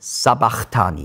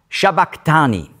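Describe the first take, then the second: First: It begins with s and has a ch sound. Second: It begins with sh and has a k sound. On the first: This is the form written in the German Bible. "In der deutschen Bibel steht Sabachthani" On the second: This is the original Aramaic form. "Und dann noch auf Aramäisch"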